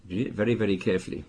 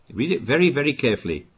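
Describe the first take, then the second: First: "very, very" ripetuto piano e rapido, più basso e morbido; quieter, faster repeat. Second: "very" ripetuto con enfasi crescente, voce più alta; stress on very. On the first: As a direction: ripetilo sottovoce e di corsa. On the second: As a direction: insisti su "very, very". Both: Shown as a demonstration.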